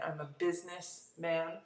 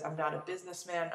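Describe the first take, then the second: First: Businessman with the first part business pushed forward; stress on business. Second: Said in the usual way. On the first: Shown as a demonstration. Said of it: "the emphasis would be on that second word, business". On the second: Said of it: "And the emphasis would be on".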